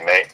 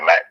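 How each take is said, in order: First: The syllable has a long 'ay' vowel. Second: The syllable has a short 'a' vowel. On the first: This is the original Italian pronunciation. "it's really make" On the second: This is how people commonly say it. "people say Mac"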